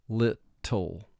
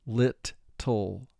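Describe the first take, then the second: Both takes have the same delivery.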